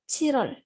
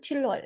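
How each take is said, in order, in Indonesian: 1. Bagian tengahnya flap ringan sebelum o. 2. Bagian tengahnya L jelas sebelum w. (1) "Jadi dibacanya itu Chirol" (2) "kalau dibaca itu Chilwol karena kalau satu-satu"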